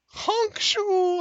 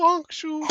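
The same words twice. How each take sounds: First: Whispered snore sounds; breathy snoring honk. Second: Voiced snore sounds; snoring. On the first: Acted. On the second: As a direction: snore it out loud. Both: GM mimes Ignis snoring.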